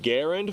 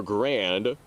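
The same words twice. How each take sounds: First: Garand with the stress on the first syllable; inventor's name pronunciation. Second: Grand said as one clipped syllable; Army pronunciation. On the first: Comparing rifle names for viewers, Garand the inventor's way. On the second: Comparing rifle names for viewers, grand the Army way. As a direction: give grand the short Army way. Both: Shown as a demonstration. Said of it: "Which is the correct pronunciation?".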